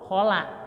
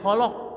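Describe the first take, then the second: First: The 'la' vowel sounds open and clear. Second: The 'la' vowel sounds deep and pulled back. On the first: The speaker calls it right. "la-nya dibuka" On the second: The speaker calls it wrong. "jangan ke bawah ke kop"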